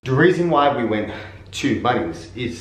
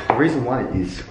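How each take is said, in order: First: Winded from the stairs; breathless after walking upstairs; out of breath. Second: Said in the usual way. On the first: Real, not acted. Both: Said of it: "I'm out of breath from walking upstairs".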